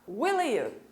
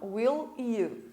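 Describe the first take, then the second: First: The two words run together into one sound. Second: The two words are said separately and clearly. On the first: This is how native speakers actually say it. "Eles vão falar will you" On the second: This is not how native speakers say it. "Eles não falam will you"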